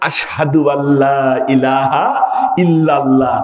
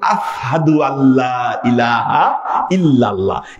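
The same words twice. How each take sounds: First: The 'sh' sound in the first word is clear. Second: The 'sh' sound in the first word is missing. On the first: This is the intended wording of the call to prayer. The speaker calls it right. "যখন আজান দেওয়ার সময় বলতেন" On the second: The speaker's burned tongue could not form the sound. The speaker calls it wrong. "শিন উচ্চারণ করতে গেলে কি, ... তখন হয়ে যেত"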